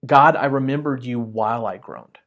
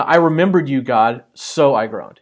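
First: "God, I remembered you while I groaned" said evenly, "while" joining the two; "while" reading. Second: "I remembered you, God, so I groaned" with a slowed, falling "so"; "so" reading. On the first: Pastor showing the Hebrew sense to the church, calm and even. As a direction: make the remembering and the groaning happen together. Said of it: "it sounds more like this". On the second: Pastor showing the church the English reading, falling "so". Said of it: "the way that our mind hears that". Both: Shown as a demonstration.

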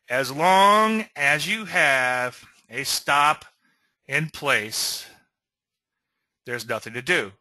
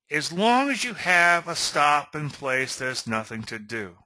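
First: Slow, "As long as you have a stop" drawn out, pauses before "in place" and "there's nothing to do"; emphatic repeat. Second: Said in the usual way. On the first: Shown as a demonstration. Coach repeating the key rule to traders, slow and emphatic. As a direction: spell it out slowly in separate phrases, "stop", "in place", "nothing to do". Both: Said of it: "let me repeat that".

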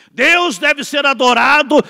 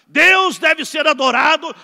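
No difference in how they are said.

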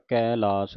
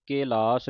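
First: ਕੈਲਾਸ with a broad, open ai after the k; open ai kailas. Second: ਕੈਲਾਸ with a plain e, not the open ai; the wrong way: ਕੈਲਾਸ with a closed e vowel; wrong kelas. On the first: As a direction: give ਕੈਲਾਸ its open ai vowel. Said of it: "ਕੱਕੇ ਨੂੰ ਦਲਾਵਾਂ ਲੱਗੀਆਂ". (ਦੁਲਾਵਾਂ ਵਾਲਾ ਕੈਲਾਸ) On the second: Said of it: "ਕੈਲਾਸ ਨਹੀਂ ਪੜ੍ਹ ਦੇਣਾ". (ਗਲਤ ਉਚਾਰਨ ਕੇਲਾਸ) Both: Shown as a demonstration.

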